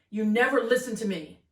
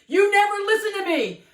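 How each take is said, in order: First: It is said at a moderate volume. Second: It is said loudly, with a raised voice.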